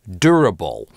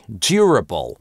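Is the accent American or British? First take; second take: American; British. First: American accent, with no y glide after the consonant. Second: British accent, with a y glide after the consonant. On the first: "Американцы произносят эти слова как" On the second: "в классическом ар пи говорят"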